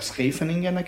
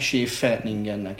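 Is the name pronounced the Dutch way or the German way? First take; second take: Dutch; German. First: The sch starts with s and a throaty kh. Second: The sch starts with a plain sh sound. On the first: "amit a hollandok Scheveningennek ejtenek" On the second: "a németek meg Scheveningennek ejtenek"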